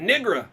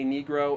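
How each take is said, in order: First: The first vowel is a short ih sound. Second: The first vowel is a long ee sound. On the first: The speaker calls it wrong. "they like add an I in there where it's not supposed to be" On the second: The speaker calls it right. "because it's clearly an E"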